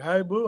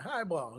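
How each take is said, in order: First: The name ends with a 'boo' sound. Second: The name ends with a clear 'ball' sound. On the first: The speaker calls it wrong. "Some people like hi boo, hi what?" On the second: The speaker calls it right. "You got you already got it right"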